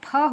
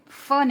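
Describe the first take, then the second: First: The consonant is an aspirated p, like 'ph'. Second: The consonant is an f sound. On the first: The speaker calls it right. "ये फ होता है" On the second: The speaker calls it wrong. "फ नहीं होता। फ के लिए यहाँ पर एक बिंदी भी आ जाती है"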